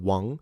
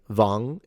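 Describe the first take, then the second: First: The word begins with a W sound. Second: The word begins with a V sound. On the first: The standard Mandarin way of speaking. "instead of Wang" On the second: An informal northern Chinese way of speaking. "they will say Wang"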